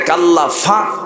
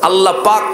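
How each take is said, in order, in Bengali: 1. দ্বিতীয় শব্দটি f ধ্বনি দিয়ে শুরু। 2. দ্বিতীয় শব্দটি p ধ্বনি দিয়ে শুরু। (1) "কাল্লা ফাক হয় না, পারে না তারা" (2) "আল্লাহ পাক হয় না"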